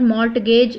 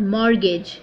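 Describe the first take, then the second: First: "mortgage" with the T pronounced before the G; T wrongly sounded. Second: "mortgage" said as "mor-gage", no T; silent T. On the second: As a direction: drop the T in "mortgage". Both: Shown as a demonstration. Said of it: "T is silent here".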